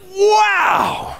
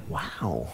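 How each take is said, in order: First: Very high, delighted "Wow"; a wide-eyed, thrilled "Wow"; amazed wow. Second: Very low, soft, let-down "Wow"; a deflated, barely voiced "Wow"; disappointed wow. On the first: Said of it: "would he be like". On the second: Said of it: "Or would he be like". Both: Shown as a demonstration.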